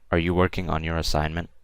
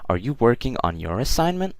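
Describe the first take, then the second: First: It is said like a statement, not a question. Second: It is said with a questioning intonation. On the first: The speaker calls it wrong. "That that doesn't that that doesn't sound like a question" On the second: The speaker calls it right. "Saying it as a question"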